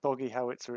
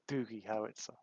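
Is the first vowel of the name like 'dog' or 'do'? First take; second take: dog; do. First: The first vowel sounds like the vowel in 'dog'. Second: The first vowel sounds like the vowel in 'do'. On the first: The speaker calls it wrong. "I mispronounced the bot" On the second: The speaker calls it right. "it's Doogie Howitzer"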